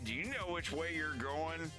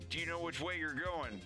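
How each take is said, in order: First: It has the speaker's plain American pitch pattern. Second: It has a slightly adopted foreign pitch pattern. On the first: This is the speaker's normal way of asking. "instead of me" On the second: The speaker has picked up a little of the local inflection. "It's me saying, oh"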